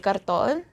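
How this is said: It is said with a Tagalog pronunciation. "in Tagalog, we say karton"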